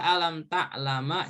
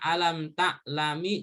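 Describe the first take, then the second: First: The last word ends with an a vowel. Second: The last word ends with an i vowel. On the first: "Dibaca alam ta'lama juga nggak boleh" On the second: "Dibaca alam ta'lami juga nggak boleh"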